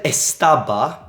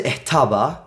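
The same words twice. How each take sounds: First: Estaba with a clear S sound; estaba, every S pronounced; full S. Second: Estaba said as ehtaba, S breathed out like an H; estaba, S dropped to an H breath. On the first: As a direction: say estaba with a crisp hissed S. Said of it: "that is correct". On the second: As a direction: estaba with the S softened to an H. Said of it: "it sounds more native". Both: Shown as a demonstration.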